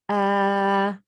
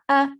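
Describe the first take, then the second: First: The vowel is long, stretched out. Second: The vowel is short, not stretched. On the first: "alif standing fatha" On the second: "just normal, no stretching"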